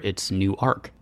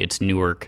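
First: It is said the Delaware way. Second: It is said the New Jersey way.

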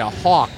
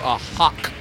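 First: The vowel sounds like the one in 'hawk'. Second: The vowel sounds like the one in 'hock'. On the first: The speaker calls it right. "You say" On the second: The speaker calls it wrong. "you don't say, ooh"

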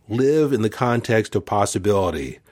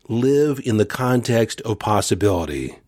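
Both takes have the same delivery.

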